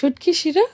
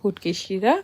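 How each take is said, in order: First: It is said with a standard Bengali pronunciation. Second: It is said with a local Sylheti pronunciation. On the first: This is the speaker's own way of saying it. "এটা হচ্ছে শুটকি শিরা" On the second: This is how the local people say it. "But তারা বলে হচ্ছে গিয়ে"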